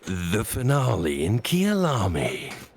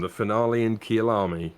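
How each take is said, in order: First: It is said in a dramatic, energetic voice. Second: It is said in a plain, ordinary way.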